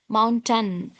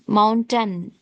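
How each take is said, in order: First: The last syllable is a reduced 'tun'. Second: The same.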